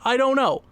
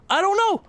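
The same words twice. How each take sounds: First: Said in the usual way. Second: Despairing. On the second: Real, not acted. Repeats in rising despair.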